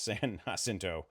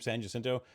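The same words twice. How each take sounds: First: Jacinto begins with an H sound. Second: Jacinto begins with an English J sound. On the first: The speaker calls it right. "It's pronounced like an H" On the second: The speaker calls it wrong. "I've hated the name San Jacinto or saying the name San Jacinto like that"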